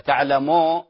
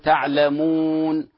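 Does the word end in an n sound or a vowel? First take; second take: vowel; n sound. First: The word ends on a vowel without n. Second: The word ends with a clear n sound. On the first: The speaker calls it wrong. "لا خطأ" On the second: The speaker calls it right. "الحقيقة نقول تعلمون"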